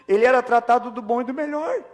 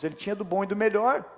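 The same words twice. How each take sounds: First: Higher and louder, stress on era; preacher driving home the point to the congregation, emphatic; emphatic restatement. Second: Said in the usual way. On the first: Shown as a demonstration. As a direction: lean hard on era as you repeat the point.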